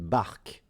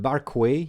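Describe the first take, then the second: First: The word ends on the k sound. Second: The word ends with an extra vowel sound. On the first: The speaker calls it right. "the way to pronounce it in French, it's une barque, which sounds like bark" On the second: The speaker calls it wrong. "it's not barquet. You don't pronounce the two last letters"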